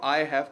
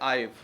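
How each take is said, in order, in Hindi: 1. यह दो अलग-अलग पूरे शब्दों की तरह बोला जाता है। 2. यह एक ही छोटे उच्चारण में मिल जाता है। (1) "आई हैव को मिला देते हैं" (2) "मिला देते हैं आईव"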